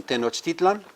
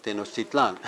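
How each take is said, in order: First: Tenochtitlan with stress on TI, second from last; Nahuatl stress. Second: Tenochtitlan stressed on final LAN. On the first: Teacher giving the next example, Nahuatl stress. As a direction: lean on TI in Tenochtitlan. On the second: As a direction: hit the closing LAN of Tenochtitlan. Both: Shown as a demonstration. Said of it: "as opposed to what?".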